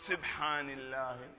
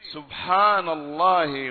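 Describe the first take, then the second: First: The first vowel is 'i' or 'a', not 'u'. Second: The first vowel is an 'u' sound. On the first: The speaker calls it wrong. "زي بعض الناس يكسر السين أو يفتحها" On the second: The speaker calls it right. "بضم السين"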